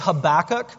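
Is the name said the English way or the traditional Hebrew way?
English. The name is said with an English pronunciation. "I'm going to say Habakkuk"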